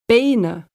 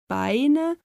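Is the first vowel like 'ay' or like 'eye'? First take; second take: ay; eye. First: The first vowel sounds like 'ay'. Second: The first vowel sounds like 'eye'.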